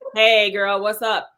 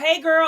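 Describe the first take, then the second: First: It is said flatly, without energy. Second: It is said with lively, girly energy.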